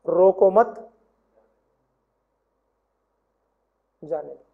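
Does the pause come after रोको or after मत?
after मत. The pause comes right after मत.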